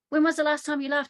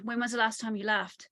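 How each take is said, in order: First: Asked again, higher and louder; louder repeat. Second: Said in the usual way. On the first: Retold or imitated. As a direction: repeat it louder so she hears.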